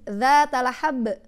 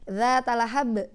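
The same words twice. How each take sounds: First: The b is pressed hard and exaggerated. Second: The b is light and natural. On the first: The speaker calls it wrong. "jangan zatalahab sampai digituin" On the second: The speaker calls it right. "Biasa ba ba ba ba"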